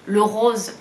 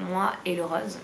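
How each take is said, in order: First: "rose" with a closed o, like "rôse", a bit louder; "rose" sounded as "rôse", closed o, a touch louder; friend's way of saying it. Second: Said in the usual way. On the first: Shown as a demonstration. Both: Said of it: "comme dirait ma copine Marie".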